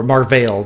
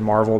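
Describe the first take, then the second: First: "Marvel" said as mar-VALE; alternate pronunciation of Marvel. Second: "Marvel" said as mar-VELL; first pronunciation of Marvel. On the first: Host offering the other version of the name, "Marvel" as mar-VALE. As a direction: say "Marvel" like mar-VALE, second syllable rhyming with sale. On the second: Host giving the character's name one way, "Marvel" as mar-VELL. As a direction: say "Marvel" like mar-VELL, second syllable rhyming with bell. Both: Shown as a demonstration. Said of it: "depending on who you talk to".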